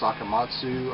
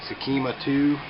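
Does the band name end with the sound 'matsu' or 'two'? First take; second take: matsu; two. First: The name ends with the syllables matsu. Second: The name ends with the English word two. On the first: The speaker calls it right. "It's actually pronounced Sakamatsu" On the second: The speaker calls it wrong. "if I pronounce this right"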